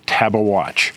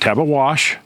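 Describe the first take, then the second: First: The name ends with a watch sound. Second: The name ends with a wash sound. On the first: The speaker calls it right. "it's Tabawatch" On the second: The speaker calls it wrong. "Not Tabawash, some people say that"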